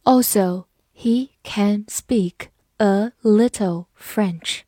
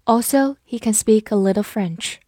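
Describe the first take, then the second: First: Slow, word by word; slow reading. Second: Said in the usual way. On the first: Shown as a demonstration. Teacher modelling a sentence about French, read slowly. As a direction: leave a gap after each word. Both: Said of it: "我们慢读一遍".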